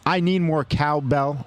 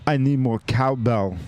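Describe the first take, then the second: First: Said in the usual way. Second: I Need More Cowbell as a famous quote, punchy; movie-line delivery. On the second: Shown as a demonstration. Host redoes beer name as the famous sketch line. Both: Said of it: "Or hold on".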